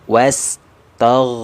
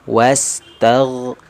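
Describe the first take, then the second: No difference in how they are said.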